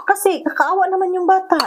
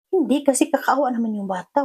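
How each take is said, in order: First: High, louder pleading insistence; urgent plea. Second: Said in the usual way. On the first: Retold or imitated. To the family opposing adoption, a high urgent plea. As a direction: beg them to feel pity, pitched up.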